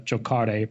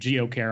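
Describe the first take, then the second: First: The name is given an Italian pronunciation. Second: The name is given an anglicized pronunciation. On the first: This is the likely true pronunciation of the name. The speaker calls it right. "I would imagine it's actually pronounced uh, the Italian word for to play" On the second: This is how someone else said it. The speaker calls it wrong. "I know Richard Grunder pronounced the name Geocare"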